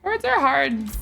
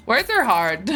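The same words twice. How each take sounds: First: A sing-song whine that words are hard; mock groan, pitched up; higher mock lament. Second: Mock self-pity. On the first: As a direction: lift it higher, playful despair. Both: Real, not acted.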